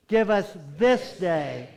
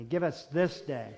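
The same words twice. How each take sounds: First: "this day" slow and loud, weighted; stress on THIS DAY. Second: Said in the usual way. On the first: Shown as a demonstration. Preacher leading the prayer, "this day" slowly emphasized. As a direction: dwell deliberately on the words "this day". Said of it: "when we say this day, let's really think about those words". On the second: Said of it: "when we say this day".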